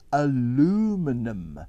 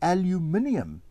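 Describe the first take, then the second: First: It is said the American way. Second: It is said the British way.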